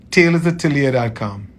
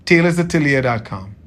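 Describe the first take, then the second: No difference in how they are said.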